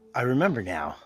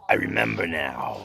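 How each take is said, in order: First: It is said in a plain voice. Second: It is said in a deep, dramatic voice.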